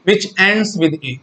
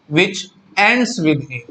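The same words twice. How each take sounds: First: "which ends with A" drawn out word by word; slow emphatic repeat. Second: Said in the usual way. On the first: Shown as a demonstration. Teacher repeating the question for students, slow and deliberate. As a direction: spell the phrase out slowly for the class.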